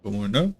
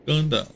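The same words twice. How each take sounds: First: Going up said with a rising tune. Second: Going down said with a falling tune. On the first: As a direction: let the pitch climb on going up. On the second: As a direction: drop the pitch on going down. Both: Pretend. Singsong up and down chant.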